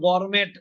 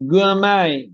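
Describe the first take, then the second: First: The word ends with a clear t sound. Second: The word ends in a vowel, no t. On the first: The speaker calls it wrong. "এটা আবার গরমেট না" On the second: The speaker calls it right. "বলেন গুয়ামাই"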